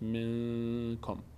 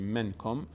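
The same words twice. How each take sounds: First: The n is nasalized through the nose and held. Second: The n is pronounced fully with the tongue. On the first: The speaker calls it right. "نون رو از بینی ادا میکنیم به همراه مقداری مکس" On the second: The speaker calls it wrong. "نمیگیم"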